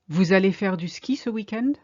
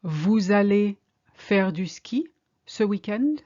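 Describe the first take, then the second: First: Said in the usual way. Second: Slow and deliberate, a rising question; slow, careful. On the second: Shown as a demonstration. Teacher modelling the question for learners, slow and careful. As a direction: spell it out word by word. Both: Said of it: "Are you going skiing this weekend?".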